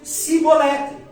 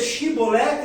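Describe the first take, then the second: First: The word begins with a plain 's' sound. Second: The word begins with an 'sh' sound. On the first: The speaker belongs to the tribe of Ephraim. The speaker calls it wrong. "eles diziam Sibolete" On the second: The speaker belongs to the tribe of Gilead. The speaker calls it right. "ao invés de dizer Shibolete"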